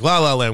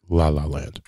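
First: It is said in a happy, upbeat tone. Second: It is said in a flat, unexcited tone.

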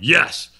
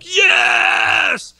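First: It is said quietly, without force. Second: It is screamed very loudly.

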